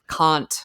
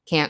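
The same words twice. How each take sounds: First: The word is said in a put-on accent. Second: The word is said in an ordinary accent. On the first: One character is pretending to be the other. "when she's acting as Sharon, like" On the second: This is the character's own way of speaking. "instead of"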